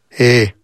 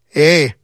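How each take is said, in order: First: It is said with half the emotion. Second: It is said with some emotion.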